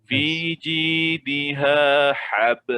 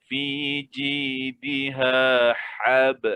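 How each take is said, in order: The two takes are said the same way.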